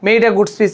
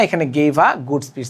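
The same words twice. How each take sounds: First: Said in the usual way. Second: Gave a good speech said slowly and deliberately, each word set apart; correct answer, slow. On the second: Shown as a demonstration. Teacher giving students the correct answer, slow and careful. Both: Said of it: "মেড হবে না".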